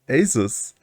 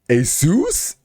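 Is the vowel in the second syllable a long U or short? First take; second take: short; long U. First: The second syllable has a short vowel sound. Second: The second syllable has a long U sound. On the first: "I always thought Asus" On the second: "does the long U come from?"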